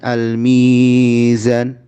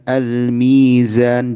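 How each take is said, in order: First: The long vowel is stretched out far too long. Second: The long vowel is held for two beats. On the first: The speaker calls it wrong. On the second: The speaker calls it right.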